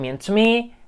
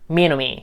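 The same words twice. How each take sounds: First: The t sound is clearly pronounced. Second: The t sound is dropped after n.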